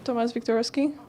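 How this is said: The name is pronounced with English sounds. "I don't know why I said his name in English"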